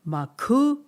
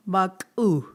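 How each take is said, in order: First: "Maku" pitched high and loud with a rising tune; "Maku" sung up high, rising; first meaning of maku. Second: "maku" dropping at the end; second meaning of maku. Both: Shown as a demonstration. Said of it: "So keep saying those".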